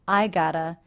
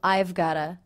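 First: The have is dropped, and got to becomes gotta. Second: It is contracted, and got to becomes gotta. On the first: "or even simply I gotta" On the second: "can reduce to I've gotta"

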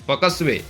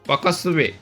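Both takes have the same delivery.

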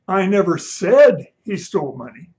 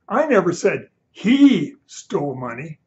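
First: The word 'said' is stressed. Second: The word 'he' is stressed.

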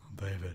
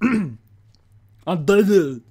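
First: It is said in his normal voice. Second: It is said in a put-on actor voice.

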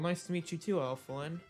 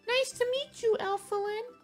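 First: It is said in the speaker's ordinary voice. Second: It is said in a put-on cartoon character voice.

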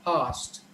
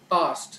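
First: The word is said in an American accent. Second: The word is said in an Indian accent. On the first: "or an American" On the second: "most of the Indians typically would say past"

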